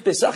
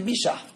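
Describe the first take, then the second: First: It starts with p and has an s sound. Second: It starts with b and has an sh sound. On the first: This is the usual form. "Au lieu de dire Pessah" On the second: This is how Tunisians say it. "ils disaient Bishah"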